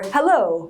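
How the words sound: The pitch falls on the word. "and it goes down"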